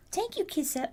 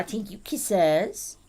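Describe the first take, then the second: First: Higher cooing thanks. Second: Slow drawn out. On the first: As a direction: coo the thanks up high. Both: Real, not acted.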